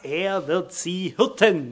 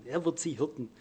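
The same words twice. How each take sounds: First: Slow, weighty "hirten" with falling tune; stressed hirten. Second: "Er wird sie hirten" repeated much softer. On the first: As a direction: lean on "hirten" and let it fall. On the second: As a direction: drop to a quiet echo of "hirten". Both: Shown as a demonstration. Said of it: "er sagt hier relativ einfach".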